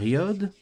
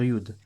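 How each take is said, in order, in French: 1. La voyelle se prononce comme 'oh'. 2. La voyelle se prononce comme 'oo'. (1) "Soit on va dire yod" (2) "soit on va dire yud"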